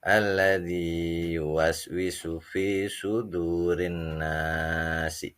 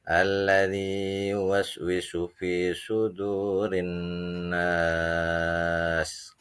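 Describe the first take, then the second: First: The final word ends with a short vowel. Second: The final word ends on a bare consonant. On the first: The reading continues on without stopping. "Kalau dibacanya wasol" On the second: The reading stops at this word. "Kalau dibacanya wa waqaf"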